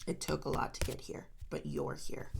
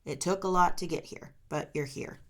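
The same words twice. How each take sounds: First: Whispered, barely voiced repeat; soft whisper. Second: Said in the usual way. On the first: Real, not acted. Reader whispers encouragement to Scorpio, hushed. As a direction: breathe it to the listener.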